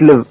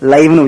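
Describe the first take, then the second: First: The vowel is short, like 'i' in 'it'. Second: The vowel is a glide, like 'eye'. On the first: It means to be alive. "இங்க லிவ்வுக்கு என்ன அர்த்தம்? வாழுன்னு அர்த்தம்" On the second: It means broadcast as it happens. "லைவ்னு உச்சரிக்கணும்"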